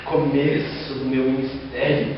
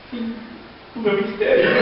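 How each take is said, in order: First: Slow, quiet and self-satisfied; smug inner thought. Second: Laughing through a mock lament; mock despair, laughing. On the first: Retold or imitated. Young preacher thinks his ministry is starting, slow and smug. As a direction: savour it like a proud milestone. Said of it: "Eu pensei". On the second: Preacher jokes his ministry just ended, laughing. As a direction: deflate the boast with a chuckle. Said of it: "E o irmãozinho dando testemunho".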